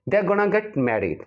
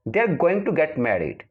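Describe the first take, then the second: First: The words 'going to' are reduced to 'gonna'. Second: The words 'going to' are said in full.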